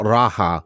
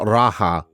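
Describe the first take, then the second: First: The middle consonant is an H sound. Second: The middle consonant is an H sound.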